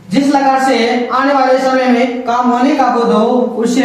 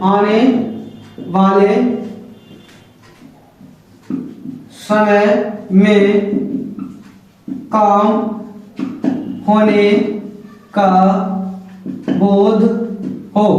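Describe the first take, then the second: First: Said in the usual way. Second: Each word dictated slowly with long pauses; slow dictation. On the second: Shown as a demonstration. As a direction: spell it out word by word for note-taking. Teacher dictating definition.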